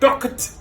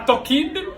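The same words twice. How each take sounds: First: The word ends in a clear t sound. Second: The ending is not a clear t sound. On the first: The speaker calls it right. "c'est talked" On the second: The speaker calls it wrong. "C'est pas talked"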